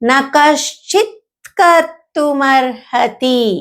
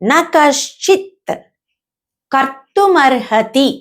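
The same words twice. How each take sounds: First: The words are linked together in one flow. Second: The words are said plainly, one by one. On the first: "ఫ్లోలో ఎలా పలుకుతామంటే" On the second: "అనేది మామూలుగా"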